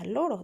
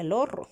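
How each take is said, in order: First: The R is a soft single tap. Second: The R is a strong rolled trill. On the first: "El sonido es muy suave" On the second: "le pusiéramos otra R"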